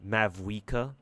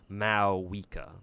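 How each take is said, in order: First: The name is said with a v sound. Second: The name is said without a v sound. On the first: The speaker calls it wrong. "all this time, I've been calling her" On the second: The speaker calls it right. "you don't pronounce the V in her name"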